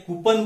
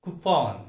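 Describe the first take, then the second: First: कूपन as KOO-pun; weak short last vowel in कूपन; wrong pronunciation. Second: कूपन as koo-PON; long open last vowel in कूपन; lower, careful model of कूपन; correct pronunciation. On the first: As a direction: mistaken कूपन. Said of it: "बोलते हैं गलती से". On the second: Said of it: "उसका सही उच्चारण". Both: Shown as a demonstration.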